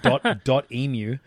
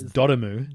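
First: It is said as dot plus emu. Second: It is said blended as one word. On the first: The speaker calls it wrong. "We said dot emu" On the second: The speaker calls it right. "but it's Dotemu"

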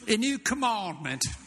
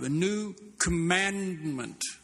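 First: It is said in an imitated English accent. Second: It is said in the speaker's normal American accent. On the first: The speaker calls it wrong. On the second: The speaker calls it right.

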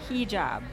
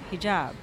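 First: The stress is on the first syllable. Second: The stress is on the second syllable. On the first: The speaker calls it wrong. "I said it wrong" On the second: The speaker calls it right. "it's on the job"

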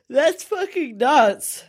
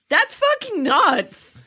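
First: It is said through a yawn, sounding sleepy. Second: It is said with lively, excited energy.

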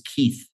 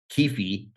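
First: The name ends with a th sound. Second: The name ends with an f sound. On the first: "His middle name is Keith. T-H" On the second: "the way you would pronounce it is F"

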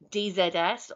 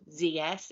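First: The Z is said the British way, zed. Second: The Z is said the American way, zee.

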